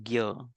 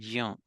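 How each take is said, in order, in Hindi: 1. अक्षर की शुरुआत gy ध्वनि से होती है। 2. अक्षर की शुरुआत jy ध्वनि से होती है। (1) "in Hindi Hindi it says gya" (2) "in some other language they'll say jya"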